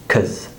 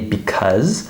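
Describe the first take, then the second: First: Only the second syllable is said, with a vowel. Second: Both syllables are said fully. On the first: "We would normally pronounce it as cuz" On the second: "this isn't how we would normally say the word"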